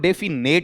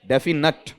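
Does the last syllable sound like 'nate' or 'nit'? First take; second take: nate; nit. First: The last syllable sounds like 'nate'. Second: The last syllable sounds like 'nit'. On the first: The speaker calls it wrong. "डेफिनेट नहीं होगा।" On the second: The speaker calls it right. "इसका शुद्ध उच्चारण क्या है?"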